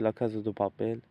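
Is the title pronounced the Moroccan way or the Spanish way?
Moroccan. The title is said with a Moroccan pronunciation. The speaker calls it wrong. "we used to say La Casa de Papel back in Morocco"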